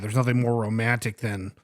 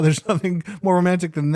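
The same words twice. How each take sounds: First: It sounds flat and ironic, disgusted. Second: It sounds light and laughing, amused. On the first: The situation is actually disturbing. "Is it said with disgust, like irony" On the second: The situation is fun and cute. "ha ha ha, ... haha, this is so fun and cute?"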